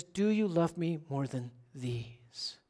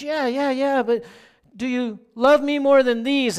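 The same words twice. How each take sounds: First: Quiet, slow plea; Jesus gently asking Peter, soft and slow; soft, slow question. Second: Higher, louder pressing question; Jesus asking Peter a second time, louder and higher; insistent repeat. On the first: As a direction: ask it slowly and softly, searching. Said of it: "because he says". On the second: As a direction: push the question again, urging. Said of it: "he says it again". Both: Retold or imitated.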